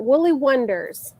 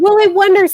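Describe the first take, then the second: First: Said in the usual way. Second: A pitched-up, louder cry of recognition; suddenly remembering the name, excited; excited recall. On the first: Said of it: "I could not remember it". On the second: Real, not acted. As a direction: blurt the name the moment it comes back. Finally remembers the pattern name.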